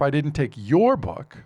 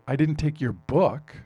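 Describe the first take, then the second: First: The word "your" is stressed. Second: The word "book" is stressed. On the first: Another person's book was taken. "I took somebody else's book" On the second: Something else of yours was taken. "I took your computer, I took your wallet"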